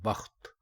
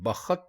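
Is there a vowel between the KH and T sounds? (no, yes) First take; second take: no; yes. First: KH and T are said together without a vowel. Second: An extra vowel separates the KH and T. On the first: The speaker calls it right. "दुरुस्त लफ्ज है बख्त" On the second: The speaker calls it wrong. "इसको लोग बखत बोलते हैं ... बखत गलत लफ्ज है"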